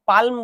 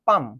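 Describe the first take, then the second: First: The L sound is pronounced in the word. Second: The L sound is left silent in the word. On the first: The speaker calls it wrong. "এল এর উচ্চারণটা হবে না, পালম বলবো না" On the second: The speaker calls it right.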